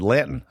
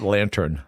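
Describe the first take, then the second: First: "Lantern" with the R dropped, Boston-style; Boston accent. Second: "lantern" with a clear R in "-tern"; R pronounced. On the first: Retold or imitated. Player failing the accent test, "Lantern" in broad Boston. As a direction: say "Lantern" as "LAN-tun", no R sound. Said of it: "You don't think you have a Boston accent". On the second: Shown as a demonstration. Player correcting his Boston slip, "lantern" with the R sounded. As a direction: sound the R in "lantern": LAN-turn. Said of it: "Not lantern".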